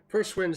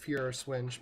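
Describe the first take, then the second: First: The first word sounds like English 'first'. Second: The first word does not sound like 'first'. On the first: This form is used because it sounds funnier. "sounds funnier, so I'm going to say it that way" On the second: This is the proper form of the name. "I know that it's"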